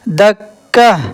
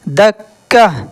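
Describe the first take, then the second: Both takes have the same delivery.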